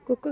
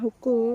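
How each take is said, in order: First: The word begins with a k sound. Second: The word begins with an h sound. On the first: The speaker calls it wrong. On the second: The speaker calls it right.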